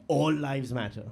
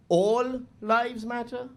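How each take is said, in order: First: Said in the usual way. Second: Drawn out slowly in disbelief; slow, sarcastic repeat; slow incredulous. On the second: Shown as a demonstration. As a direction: stretch it out, mocking disbelief. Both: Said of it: "It's like, really?".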